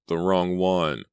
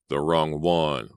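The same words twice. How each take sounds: First: The moaning voice echoes its mistake; moaning repeat. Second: Slow, choked lament; a killer chokes out his grief. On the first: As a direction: repeat it in rising panic. Voice repeats in panic. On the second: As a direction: force it out through a choking throat. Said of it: "a voice choked out". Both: Acted.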